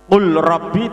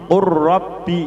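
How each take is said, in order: First: The L is pronounced separately before the R. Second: The L merges into a doubled R sound.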